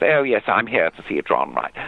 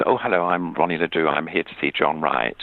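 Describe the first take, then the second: First: A touch higher, put-on posh English; lightly put-on RP toff; mock posh voice. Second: Mock posh voice. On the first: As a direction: mimic her grand RP without meaning to. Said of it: "I put on this posh voice, sort of mimicking her". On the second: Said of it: "I put on this posh voice".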